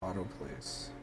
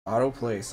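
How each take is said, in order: First: Much softer, under the voice; quiet offhand command. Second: Louder and higher, as an order; insistent command. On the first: Real, not acted. Player trying auto place to herself, quiet and offhand. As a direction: say it softly to yourself. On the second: Pretend. Player ordering the game to obey, loud and insistent. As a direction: repeat it firmly, raising the voice. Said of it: "I say".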